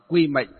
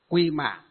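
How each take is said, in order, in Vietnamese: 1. Từ cuối cùng được đọc theo cách miền Bắc. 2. Từ cuối cùng được đọc theo cách miền Nam. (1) "ở miền Bắc chúng ta đọc là mệnh" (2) "còn ở miền Nam đọc là mạng"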